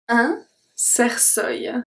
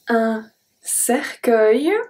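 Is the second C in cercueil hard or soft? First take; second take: soft; hard. First: The second C sounds like an S. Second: The second C sounds like a K. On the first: The speaker calls it wrong. "it's going to turn into S. It's not a hard C, it's a soft C" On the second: The speaker calls it right. "the U keep the C as a hard C"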